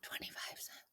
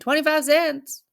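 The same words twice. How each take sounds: First: It is said very quietly, almost whispered. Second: It is said in a louder voice.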